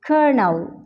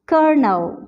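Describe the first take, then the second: First: The word is said with an R sound. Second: The same.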